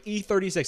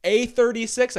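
First: "E" said high as a long EE before "thirty-six"; clear letter E. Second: High, loud query with "A" said as AY; misheard letter A. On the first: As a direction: give the correction with a clear EE on "E". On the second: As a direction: imitate him asking back with AY on "A". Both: Retold or imitated. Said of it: "he thought I said A thirty-six".

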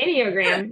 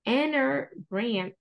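First: "Enneagram" said fluently as "IN-ee-oh-gram"; corrected "Enneagram", with a clear "ee-oh" in the middle; corrected pronunciation. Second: "Enneagram" slowly sounded out as "anner-gram"; hesitant mispronunciation. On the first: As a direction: say "Enneagram" with all four syllables, louder. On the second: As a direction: stumble slowly through "Enneagram", losing the "ee-oh" in the middle. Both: Real, not acted.

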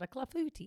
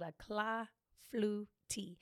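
First: Said in the usual way. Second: Clafoutis broken slowly into cla-fou-tis; sounded out. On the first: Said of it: "before I can say it". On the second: Real, not acted. Host naming a French brunch dish, clafoutis sounded out slowly. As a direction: say clafoutis syllable by syllable, "cla, flu, tee". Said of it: "I have to say it like that".

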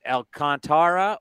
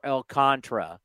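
First: Alcantara said al-con-TAR-uh; four-syllable option. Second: Alcantara said al-CON-truh; three-syllable option. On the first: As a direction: give Alcantara a full, stressed TAR. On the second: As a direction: run Alcantara's last syllables together as tra. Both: Shown as a demonstration. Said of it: "dude, is it".

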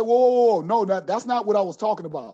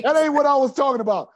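First: Retold protest. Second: Laughing protest. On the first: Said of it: "I said". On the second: Retold or imitated. Laughing retelling of his protest.

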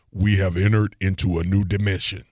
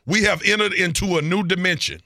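First: Low, deep movie-intro voice. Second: Grand sci-fi opening line, pitched higher; Star Wars introduction. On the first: Shown as a demonstration. Host showing off his voiceover skills to his co-host, deep voice. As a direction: drop the pitch low for an epic announcement. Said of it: "say it again in the deep voice". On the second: Acted. Podcast host hyping space travel to his co-host, Star Wars introduction. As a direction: announce it like an epic movie intro. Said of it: "sound like a Star Wars introduction".

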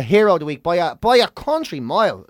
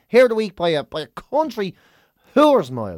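First: Said in the usual way. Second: Hammed-up Dublin flourish; mock emphatic. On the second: Shown as a demonstration. Host crowning the hero of the week, hammed up.

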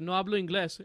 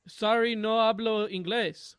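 First: Said in the usual way. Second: Slow, mock-apologetic Spanish; feigned language barrier. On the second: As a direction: pretend you speak no English, drawn out. Mom feigns not speaking English.

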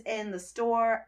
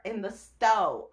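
First: Said in the usual way. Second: "stowe" with the r dropped, ending on a long o; "stowe" for store. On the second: Shown as a demonstration. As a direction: say "stowe" slowly, rhyming with go, no r. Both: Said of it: "I should say".

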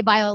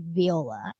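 First: Viola said vye-OH-la, with an eye sound at the start; American pronunciation. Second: Viola said vee-OH-la, with an ee sound at the start; British pronunciation. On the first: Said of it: "we would say Viola". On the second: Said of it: "the British way of saying Viola is". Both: Shown as a demonstration.

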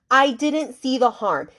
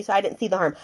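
First: Slow, higher mock of the sister's excuse; slowed mocking echo; slow mocking repeat. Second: Said in the usual way. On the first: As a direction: drag it out, mimicking the sister's excuse. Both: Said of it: "she literally tells her".

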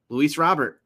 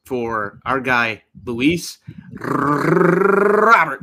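First: Robert with a trilled R; rolled r. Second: Long drawn-out Robert with a rolled R, loud. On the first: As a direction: roll the R in Robert. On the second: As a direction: roll the R hard in Robert. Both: Shown as a demonstration. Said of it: "I rolled the R for you".

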